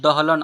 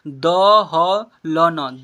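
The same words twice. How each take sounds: First: Said in the usual way. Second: "दहलन" loud and slow as द, ह, ल, न; letter by letter. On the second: Shown as a demonstration. Teacher sounding out "दहलन" for learners, letter by letter. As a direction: stretch "दहलन" into four syllables, each vowel held. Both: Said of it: "ऐसे पढ़ेंगे".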